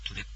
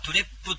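First: The word ends by just closing the lips. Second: The final p is released with a vowel. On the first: The speaker calls it right. "あの口を閉じるだけみたいな" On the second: The speaker calls it wrong. "そういう発音でなく"

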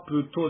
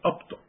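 First: The final sound is fully pronounced. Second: The final sound is swallowed. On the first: The speaker calls it wrong. "アプトじゃなくて" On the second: The speaker calls it right. "飲み込むように発音いたします"

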